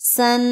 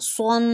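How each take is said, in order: First: The s sound is thin and light. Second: The s sound is thick and heavy. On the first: The speaker calls it wrong. "اس کو میں نے پڑھا تھا سن" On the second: The speaker calls it right. "صاد موٹا ہے، اس کو موٹا کر کے پڑھیں گے"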